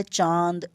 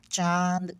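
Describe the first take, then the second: First: Said in the usual way. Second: चांद drawn out with a pinched, blocked nose; nose held shut. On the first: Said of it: "ये जो word लिखा है चांद". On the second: Shown as a demonstration. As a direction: hold your nose and stretch चांद. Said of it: "बंद करके देखो नाक को". (नाक बंद करके चांद)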